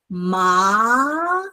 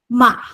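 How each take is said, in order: First: The pitch rises long to a high end. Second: The pitch drops suddenly from high, briefly. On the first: "So ma is the second tone" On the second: "It's very short. It goes from the first tone position suddenly down"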